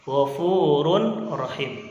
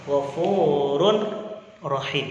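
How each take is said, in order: No difference in how they are said.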